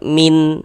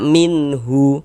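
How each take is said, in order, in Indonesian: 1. Kata ini berakhir pada n tanpa h. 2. Kata ini berakhir dengan tambahan vokal hu. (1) "Jangan dibaca min, cuman min" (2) "Jangan juga dibaca minhu"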